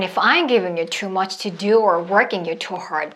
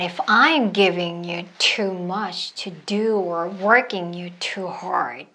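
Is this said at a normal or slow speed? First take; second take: normal; slow. First: It is spoken at a normal conversational speed. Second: It is spoken slowly and deliberately. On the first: "이번엔 노멀 사운드로 해볼게요" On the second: "먼저 슬로우로 해볼게요"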